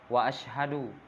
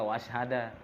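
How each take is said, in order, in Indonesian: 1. Kata itu berakhir dengan vokal u. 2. Kata itu berakhir dengan vokal a.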